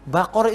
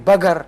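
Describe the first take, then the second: First: The middle consonant is a deep back k. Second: The middle consonant is a hard g. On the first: This is the Quranic letter qaf. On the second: Saudi speakers say it this way. "kofnya menjadi ga"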